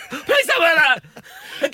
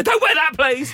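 First: Very slow, high, drawn-out begging; mock pleading dad. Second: High, loud, sharp telling-off; mock strict dad. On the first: Dad begging his daughter to change, drawn-out plea. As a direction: beg her like a defeated father. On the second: Dad warning his teenage daughter about her outfit, mock strict. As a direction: bark it like a dad who has had enough.

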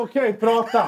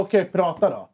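First: Higher, offhand dismissal; mock bored. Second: Flat offhand okay; bored reply to the teacher; uninterested. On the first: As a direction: wave him off, clearly uninterested. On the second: Retold or imitated. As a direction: brush him off with a laugh. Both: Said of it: "jag var ändå fett ointresserad".

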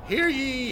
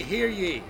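First: Loud, high proclamation call; town crier. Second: Town crier. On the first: Public call at a protest. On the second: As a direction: call it out to the crowd. Repeated public call. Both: Acted.

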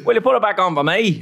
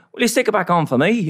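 First: Put-on a second try at a Belfast accent, laughing through it; scene: retrying the chip shop line in a better Belfast accent. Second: Badly faked Belfast accent, pitched up; a clumsy go at a Northern Irish voice; scene: imitating the chip shop man, bad Belfast accent; terrible Belfast accent. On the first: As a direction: redo the Northern Irish line, still giggling. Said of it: "That was better". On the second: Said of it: "that was a terrible accent".

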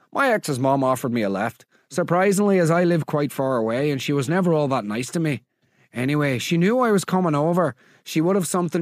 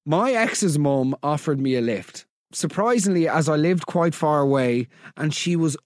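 First: Attempted Northern Irish accent drifting Scottish; Scottish-sounding accent. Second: Said in the usual way. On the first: Host reading a listener's story about an ex's mum, Scottish-sounding accent. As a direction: read it in an accent that slips into Scottish. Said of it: "Why is she Scottish now?".

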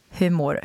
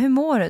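First: In-earnest question. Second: Light, higher-pitched routine how-are-you; casual small-talk greeting. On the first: Host opening the podcast wants a proper answer, in earnest. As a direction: ask it as if you truly want to know. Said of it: "Så vill jag ha ett ordentligt svar". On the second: Podcast host imitates asking someone in passing, casual. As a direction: toss it off as a passing pleasantry. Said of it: "typ när man frågar någon så här". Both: Acted.

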